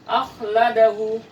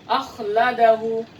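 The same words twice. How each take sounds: Both takes have the same delivery.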